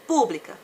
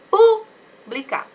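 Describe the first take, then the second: First: Said in the usual way. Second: Pública with a long, loud, high PÚ, then blica; stressed first syllable. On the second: Shown as a demonstration. Teacher showing the accented syllable, Pública stressed hard on PÚ. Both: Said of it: "assim, ó, acentuada".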